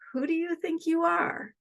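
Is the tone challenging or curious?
curious. It sounds like an open, genuinely curious question. The listener is invited to explore their own identity. "It's just maybe the tone sounds a little bit different"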